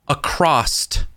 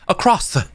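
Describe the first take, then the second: First: The word ends with a T sound. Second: The word ends with a soft S sound. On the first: The speaker calls it wrong. "There's not a T in across" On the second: The speaker calls it right. "It's a soft S"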